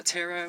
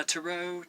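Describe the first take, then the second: First: "tarot" with an open first vowel, TAIR-oh. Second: "tarot" with a reduced first vowel, tuh-ROH. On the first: Vlogger showing the other pronunciation, "tarot" as TAIR-oh. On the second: Vlogger showing how people pronounce it, "tarot" as tuh-ROH. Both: Shown as a demonstration. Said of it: "people pronounce it differently".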